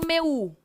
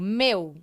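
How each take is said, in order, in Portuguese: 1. O u é pronunciado como uma sílaba própria. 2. O u desliza fracamente depois do e. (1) "eu não falo meu" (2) "a letra U assumindo o papel de semivogal"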